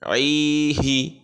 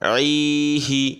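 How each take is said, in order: No difference in how they are said.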